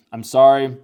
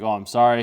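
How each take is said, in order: First: High, loud "I'm sorry" cried out; loud apology. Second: Quick startled "Oh, I'm sorry", a little louder; startled apology. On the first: Girl apologizing after hitting him, loud high cry. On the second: Girl bumping into him, startled apology. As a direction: blurt out the apology in surprise. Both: Retold or imitated.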